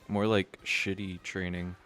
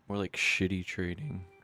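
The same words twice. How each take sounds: First: The voice stays steady without cracking. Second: The voice cracks while saying it.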